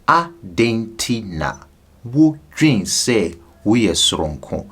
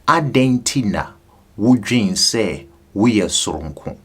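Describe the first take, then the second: First: It is said slowly. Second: It is said at normal speed.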